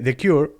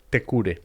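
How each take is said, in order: First: The name is said with English pronunciation. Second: The name is said with Spanish pronunciation.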